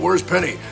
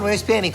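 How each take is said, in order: First: The voice sounds raw, as recorded in studio. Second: The voice sounds polished after engineering work. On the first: "the voice that I'm doing in the studio as Wooten sounds like this" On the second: "in Jonathan's capable hands, it ends up sounding like this"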